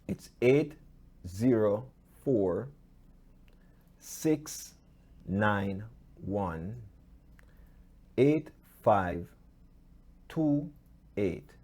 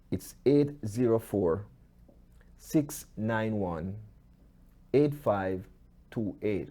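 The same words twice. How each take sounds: First: The number is read out slowly. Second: The number is read at normal speed.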